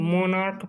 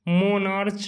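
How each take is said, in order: First: The word ends with a 'k' sound. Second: The word ends with a 'ch' sound. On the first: The speaker calls it right. "मोनार्क पढ़ते हैं" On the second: The speaker calls it wrong. "मोनार्च नहीं"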